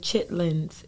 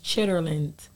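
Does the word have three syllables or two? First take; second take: two; three. First: The word is said in two syllables. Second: The word is said in three syllables. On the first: The speaker calls it wrong. "a lot of people say chitlins" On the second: The speaker calls it right. "It's chitterlins. It has an E-R in it"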